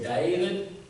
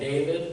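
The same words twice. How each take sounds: First: David is said in a Deep South accent. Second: David is said in a general American accent. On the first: "my mother would say" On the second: "My grandparents would call me"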